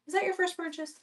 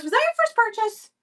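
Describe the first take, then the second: First: Higher but much softer, gentle repeat. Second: Much higher, bright excited question; excited squeal. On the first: Host quietly repeats her question to the buyer, soft and high. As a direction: ask again softly, almost to yourself. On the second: Host squeals to a buyer about the purchase, excited high question. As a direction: squeal it to a happy new buyer. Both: Real, not acted.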